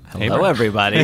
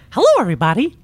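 First: It is spoken in an ordinary natural voice. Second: It is spoken in a put-on character voice.

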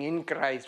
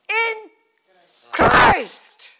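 First: It is said flatly, without energy. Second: It is shouted loudly with energy.

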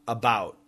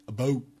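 First: It is said with an American vowel. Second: It is said with a Canadian vowel. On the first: "Americans will typically say about" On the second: "But Canadians say about"

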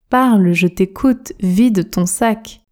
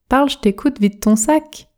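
First: It is spoken at a normal conversational speed. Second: It is spoken quickly with sounds run together. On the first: "Vitesse standard maintenant" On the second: "Pratiquons la version rapide, la version express. Je prononce"

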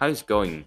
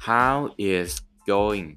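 First: The phrase is said quickly, words run together. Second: The phrase is said slowly, word by word.

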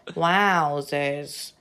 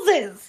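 First: It is said in a flat robotic voice. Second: It is said in a lively human voice.

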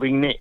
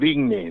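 First: The stress is on the last syllable. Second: The stress is on the first syllable. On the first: The speaker calls it wrong. "no Vigné" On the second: The speaker calls it right. "soy Vigné ... Sin acento"

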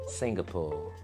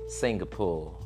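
The two takes are said the same way.

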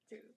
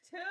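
First: It is said quietly. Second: It is said loudly.

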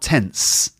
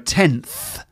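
First: The word ends with an s sound. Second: The word ends with a th sound. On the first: The speaker calls it wrong. "and not tense either" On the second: The speaker calls it right. "It's a th sound"

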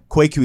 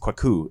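First: The name is said with an American pronunciation. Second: The name is said with its native pronunciation. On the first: The speaker calls it wrong. "technically Kwaku is the American pronunciation" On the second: The speaker calls it right. "is actually how you're supposed to pronounce it"

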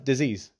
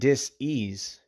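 First: The word is said smoothly as one unit. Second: The word is split into two separate parts. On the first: It names an illness. "A lot of people say, oh, it's disease" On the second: The body is not at ease. "I have a new pronunciation of that word, right? ... But listen to it"

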